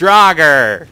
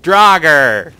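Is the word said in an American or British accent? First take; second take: American; American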